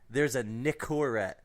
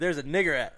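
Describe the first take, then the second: First: It is said carefully in standard English. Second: It is said with an Eastern European accent. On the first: "I'm gonna really pronounce this so it doesn't come off wrong" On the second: "the way they say it"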